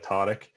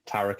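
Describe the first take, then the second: First: The name is said with guttural Arabic sounds. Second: The name is said with plain English sounds. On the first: This is the original form of the name. "technically it should be pronounced like" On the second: This is the easier form used day to day. "I've kind of just said"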